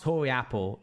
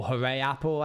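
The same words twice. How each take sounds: First: "Hori Apple" said as HOR-ee apple, with an O sound; pronounced Hori Apple. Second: "Hooray Apple" said like the cheer hoo-RAY; pronounced Hooray Apple. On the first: Streamer sounding out the apple name to chat, plain HOR-ee. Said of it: "Without the accent, this is pronounced". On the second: Streamer offering chat the cheer-like hoo-RAY reading. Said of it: "or Hooray Apple, I guess". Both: Shown as a demonstration.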